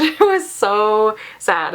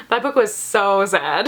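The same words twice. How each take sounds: First: Slow, laughing through the words. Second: Said in the usual way. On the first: Real, not acted. Reader laughing at how sad the book was, laughing slowly. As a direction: let a real laugh spill into it.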